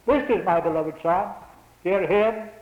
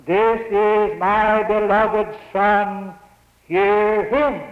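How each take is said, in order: First: Said in the usual way. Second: Voice from heaven. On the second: Acted. Voice from the cloud, quoted.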